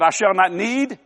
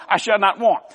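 First: Mock misquote landing on "need"; stress on NEED. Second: Corrected quote landing firmly on "want"; stress on WANT. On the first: Preacher misquoting the psalm to correct it, stress on "need". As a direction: put the deliberately wrong word "need" at the end, questioning. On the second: Preacher correcting the psalm, stress on "want". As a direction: close firmly on the word "want". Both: Shown as a demonstration.

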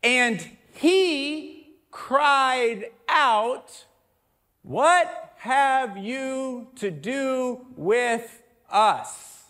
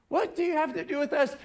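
First: Drawn-out, very slow reading, louder and higher. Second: Rattled off fast; quick read. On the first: Preacher reading the demon's cry to the congregation, very slow and drawn out. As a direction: stretch every word of the demon's cry. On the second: Preacher rushing through the demon's question for contrast, fast. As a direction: say it quickly, like a passing line. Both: Shown as a demonstration. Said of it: "if you read it slow".

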